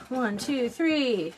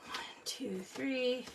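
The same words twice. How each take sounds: First: Said in the usual way. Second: Much softer, whispered count; counting under breath. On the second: Shown as a demonstration. Counting aloud, then whispered.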